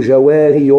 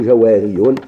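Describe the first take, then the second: First: جواري ending on a plain long -i, no nunation; jawari without tanween. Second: جواري ending in -iyun with nunation; jawariyun with tanween. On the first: Teacher giving the correct form, جواري with no tanween. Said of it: "ماشي نقولوا جواري". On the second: Teacher giving the wrong form, جواري with tanween. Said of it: "يجيبوا هذا التنوين". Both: Shown as a demonstration.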